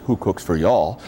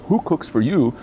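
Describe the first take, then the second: First: The Southern version of the owl's hoot; Southern owl call. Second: Hooted in the owl's rhythm, "Who cooks for you?" with a rise on "Who"; barred owl call. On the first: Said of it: "Or in the South, it says". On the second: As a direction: hoot it like a barred owl calling out. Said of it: "The barred owl says". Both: Retold or imitated.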